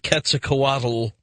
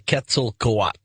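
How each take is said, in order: First: The word ends with a clear L sound. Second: The word ends without an L sound. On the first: The speaker calls it wrong. "we have to get the L out of here" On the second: The speaker calls it right. "just say Quetzalcoatl"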